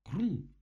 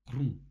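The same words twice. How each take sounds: First: Громкий, высоко взлетающий «хрум»; выкрикни хруст высоко и во всю силу; очень громкий хруст. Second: Громкий отрывистый «хрум», ниже по тону; изобрази хруст громко и коротко; хруст в кустах. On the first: (оглушительный высокий хрум) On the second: (громкий низкий хрум) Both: A narrator's reading. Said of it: "Гораздо громче, чем прежде".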